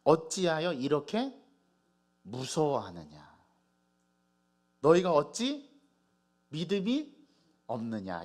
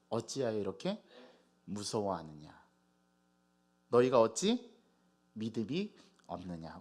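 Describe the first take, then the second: First: Slow, weighty reproach with pauses; solemn rebuke. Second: Measured reproach, falling low at the ends; restrained rebuke. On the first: Jesus chiding the frightened disciples, slow solemn rebuke. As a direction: draw each phrase out as a stern reproach. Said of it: "예수님께서 꾸지람하십니다". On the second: Jesus's words to disciples quoted back, restrained grave rebuke. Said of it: "야단을 치셨거든요". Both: Acted.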